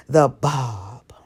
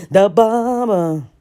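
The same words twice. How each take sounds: First: Whispered reveal of the bob; hushed teaser. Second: The bob announced with a flourish; showy announcement; proud reveal. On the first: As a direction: breathe it like a secret. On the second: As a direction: say The bob like unveiling a prize. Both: Shown as a demonstration.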